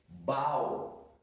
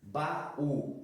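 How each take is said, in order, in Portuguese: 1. A e u se juntam em uma só sílaba. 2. A e u ficam em sílabas separadas. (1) "se nós não colocamos no acento, nós poderíamos ler" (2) "Para não termos uma ditongação"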